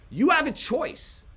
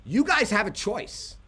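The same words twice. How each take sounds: First: "have" stressed, higher and slowed; slow, pitched-up "You have a choice" with weight on "have"; emphatic repeat. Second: Said in the usual way. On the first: Shown as a demonstration.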